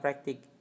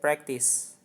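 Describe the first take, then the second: First: It is said like the Indonesian word praktik. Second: It is said like the English word practice. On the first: The speaker calls it wrong. "kita bukan bilang praktik" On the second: The speaker calls it right. "it could be better if you say that practice"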